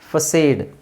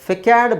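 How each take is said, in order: First: The c is said as an s sound. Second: The c is said as a k sound. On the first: The speaker calls it right. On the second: The speaker calls it wrong.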